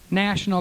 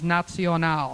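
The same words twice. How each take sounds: First: The word is said with English pronunciation. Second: The word is said with German pronunciation.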